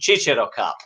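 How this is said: Cicero is pronounced with Italian sounds.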